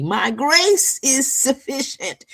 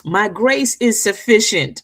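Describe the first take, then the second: First: Higher, slower, tender voice of God; quoting God gently to his daughter; God speaking. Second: Said in the usual way. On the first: Retold or imitated. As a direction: lift it up and slow it down as God's promise. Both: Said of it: "That's what he would say to me".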